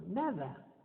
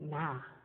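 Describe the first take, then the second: First: The word is said in full with its d. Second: The word is shortened to one syllable. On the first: "En México decimos" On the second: "o se dice na"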